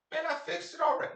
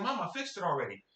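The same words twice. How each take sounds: First: Put-on high, mouthy kid talking back; lightly voiced sassy child. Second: Said in the usual way. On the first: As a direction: sass your mother like a cocky kid. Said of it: "I didn't say it like that". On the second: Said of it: "I didn't say it like that. I was like".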